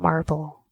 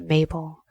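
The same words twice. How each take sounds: First: "Marble" with a clear R sound, mar-bul; wrong name. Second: "Mabel" said MAY-bul, no R; right name. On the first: Rejecting the name that first came to mind, "Marble" with the R. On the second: Naming the new cat, "Mabel" as MAY-bul. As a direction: land on "Mabel", two clean syllables without the R. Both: Shown as a demonstration. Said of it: "Not Marble, but Mabel".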